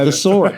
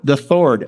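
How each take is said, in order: First: The s sound is a clear s. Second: The s sound is lisped like th.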